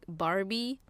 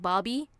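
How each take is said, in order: First: The r sound is clearly pronounced, American style. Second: The r sound is dropped, Australian style. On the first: "you guys say the R as a like a R" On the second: "we just say it straight like Bobby"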